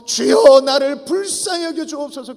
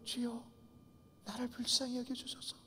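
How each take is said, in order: First: It is shouted in a loud voice. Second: It is said in a tiny, fading voice. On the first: "큰 소리로 외쳤죠" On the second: "조그마한 목소리로, 다 기어 들어가는 목소리로"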